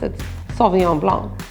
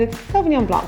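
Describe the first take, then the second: First: It is said the French way, final C silent. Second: It is said in an English, non-French way. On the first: This is how it is said in France. "if you're in France" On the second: This is how the speaker normally says it. "If you're saying it like I would say it"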